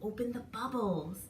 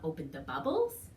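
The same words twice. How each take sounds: First: The voice stays level to the end like a statement. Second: The voice rises at the end like a question.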